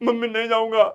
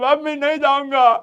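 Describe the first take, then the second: First: It is said mildly, with little emotion. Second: It is said wildly, with exaggerated emotion. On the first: The child resists only a little. "Almost no drama कह दो, no drama" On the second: The child throws a full tantrum. "तुम एकदम पागल हो जाओगे... बहुत drama करने लगोगे"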